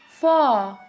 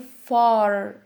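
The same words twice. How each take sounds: First: The final R sound is dropped. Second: The final R sound is clearly pronounced. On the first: "British accent they say" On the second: "Americans say"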